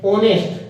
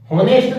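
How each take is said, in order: First: ऑनेस्ट said with a silent h, starting on the vowel o; silent h honest. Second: होनेस्ट with a spoken h at the start, pitched higher, as the mistake; wrong h sound. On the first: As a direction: say ऑनेस्ट as "onest", no h sound. (ऑनेस्ट बिना ह की ध्वनि के, "ओनेस्ट") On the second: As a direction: say होनेस्ट with a clear h, showing the wrong way. (होनेस्ट गलत उच्चारण, ह की ध्वनि के साथ) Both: Shown as a demonstration. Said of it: "होनेस्ट नहीं पढ़ते हैं".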